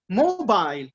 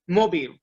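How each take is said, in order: First: The word has a standard English pronunciation. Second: The word has a French-influenced pronunciation. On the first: The speaker calls it right. "we say mobile" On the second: The speaker calls it wrong. "we don't say mobile"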